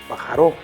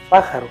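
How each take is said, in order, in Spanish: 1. El acento está en una sílaba posterior. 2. El acento está en la primera sílaba. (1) "ya que no decimos" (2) "hay una vocal que se pronuncia más fuerte, como al decir"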